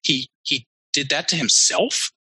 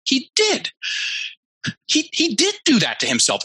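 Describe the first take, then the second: First: "himself?" rising up at the end like an unsure question; uptalk question. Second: Much higher, the penny dropping on "He did."; sudden realization. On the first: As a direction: imitate her halting uptalk, tune climbing on "himself?". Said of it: "went up at the end like a question". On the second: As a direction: retell her lightbulb moment with a lifted, certain "himself.". You see it catch. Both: Retold or imitated.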